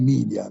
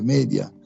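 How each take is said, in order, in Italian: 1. La prima vocale suona come 'ee', alla maniera inglese. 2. La prima vocale suona come 'e', alla maniera latina. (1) "non media"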